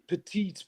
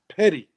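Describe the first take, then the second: First: It is pronounced as petite, with two full syllables. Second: It is pronounced as petty, with a short ending. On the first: This is the original French name. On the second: This is the local Newfoundland way of saying it.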